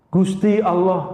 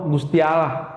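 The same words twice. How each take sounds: First: Gusti Allah in Javanese style, Allah said like aloh, a bit slow; Javanese pronunciation. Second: Said in the usual way. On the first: Shown as a demonstration. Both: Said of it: "orang Jawa nyebutnya Gusti Allah".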